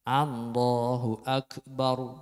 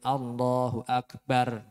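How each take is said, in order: First: The r is heavy, said with rounded lips. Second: The r is light, said without rounded lips. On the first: The speaker calls it right. "sedikit memonjongkan bibir" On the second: The speaker calls it wrong. "ro-nya bukan tafhim tapi tarqiq"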